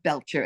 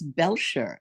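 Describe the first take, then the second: First: The name begins like the word belch. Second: The name is said with a French sound. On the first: The speaker calls it wrong. "like a burp" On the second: The speaker calls it right. "It was derived from French"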